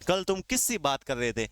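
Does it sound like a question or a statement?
question. It is said with questioning intonation. It asks something. The speaker calls it right.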